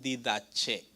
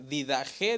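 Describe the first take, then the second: First: The third consonant is a ch sound. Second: The third consonant is a throaty h sound. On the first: "algunos dicen didache" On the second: "Didaje dicen algunos"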